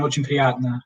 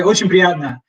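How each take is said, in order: First: Очень приятно calm, "O-chen pri-YAT-na"; plain repeat; Russian repeat. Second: Очень приятно with a laugh, "O-chen pri-YAT-na"; amused greeting; Russian ochen priyatno. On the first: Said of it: "that's what you would say". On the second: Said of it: "nice to meet you". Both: Shown as a demonstration.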